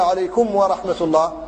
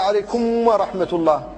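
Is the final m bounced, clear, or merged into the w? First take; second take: clear; merged. First: The final m is clear and separate, with no bounce. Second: The final m merges into the following w. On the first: The speaker calls it right. "أما الفك هو أن يقول" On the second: The speaker calls it wrong. "هذا هو الإدغام"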